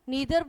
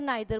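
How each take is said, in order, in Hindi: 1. पहला स्वर 'ee' जैसा बोला जाता है। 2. पहला स्वर 'eye' जैसा बोला जाता है। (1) "नीदर बोल लो" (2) "नाइदर बोल लो"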